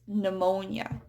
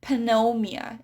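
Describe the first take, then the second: First: The P at the start is silent. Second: The P at the start is pronounced. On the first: The speaker calls it right. "it's pneumonia, the silent P" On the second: The speaker calls it wrong. "it's not pneumonia"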